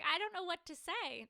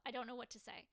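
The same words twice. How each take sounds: First: Louder, higher, flustered blurt; stunned reply. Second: Said in the usual way. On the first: Retold or imitated. Retelling her answer to the ring, a stunned loud blurt. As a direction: blurt it out, overwhelmed by the proposal. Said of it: "I was like". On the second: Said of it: "That's literally what came out of my mouth".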